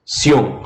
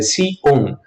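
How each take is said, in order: First: "sion" as one single syllable; joined diphthong. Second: "si, on" as two separate syllables; wrongly separated diphthong. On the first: Teacher shows the sound kept together, "sion" in one syllable. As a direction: glide the i straight into the o in "sion". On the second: Teacher shows what Spanish cannot separate, "si, on" split in two. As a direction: break "si, on" apart between the vowels. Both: Shown as a demonstration. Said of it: "não posso separar a pronúncia".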